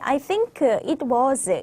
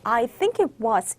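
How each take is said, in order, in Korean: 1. 각 단어를 완전히 따로 발음합니다. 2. 단어들이 줄어들고 붙어서 발음됩니다. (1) "이렇게 읽어주면은 우리는 듣는 게 너무 쉽거든요" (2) "이렇게 들릴 거예요"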